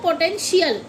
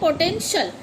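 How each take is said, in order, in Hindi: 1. अंत को खींचकर shiyal बोला जाता है। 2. अंत एक ही सिलेबल में बोला जाता है, shal। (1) "ना कि इसको पोटेंशियल" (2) "पोटेंशियल बोलते हैं इसको"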